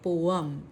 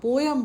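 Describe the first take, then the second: First: The two vowels are said without a glide. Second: A 'y' glide joins the two vowels. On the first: This is how it is actually said. The speaker calls it right. "उसको actual में कहा जाता है पोअम" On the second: This is how many people usually say it. The speaker calls it wrong. "जिसको आप पोयम बोलते हैं"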